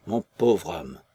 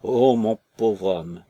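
First: Lower, sinking "mon pauvre homme" as the wail dies; widow's lament trailing off; fading lament. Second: Slow, louder wailing "Oh, mon pauvre homme"; drawn-out mournful cry over her husband; grieving woman wailing on the jetty; lament. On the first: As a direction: let the grief drop away low. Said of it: "secouée de sanglots". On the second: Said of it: "sa lamentation". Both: A narrator's reading.

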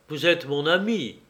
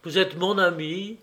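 First: Sérieux et posé, descente sur «ami»; d'un air grave. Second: «êtes» appuyé et montant, plus aigu; insistance. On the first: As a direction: parler gravement à son ami. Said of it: "dit Lionel d'un air grave". (Lionel, grave, à Henri) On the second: (Lionel insiste auprès d'Henri, appuyant «êtes») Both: Acted.

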